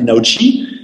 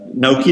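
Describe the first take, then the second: First: The last syllable begins with a ch sound. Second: The last syllable begins with a k sound. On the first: The speaker calls it right. "c'est Naochi, puisque le chi, c'est en chinois" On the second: The speaker calls it wrong. "je ne devrais pas prononcer comme ça"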